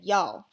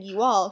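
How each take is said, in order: First: "y'all" run into one syllable; Southern-style "y'all"; Southern contraction. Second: Said in the usual way. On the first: Shown as a demonstration. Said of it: "she said". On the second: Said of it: "instead of saying".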